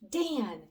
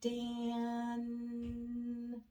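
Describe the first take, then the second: First: The word is said quickly. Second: The word is drawn out slowly. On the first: "Say this special name fast with me" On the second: "now let's blend it slowly"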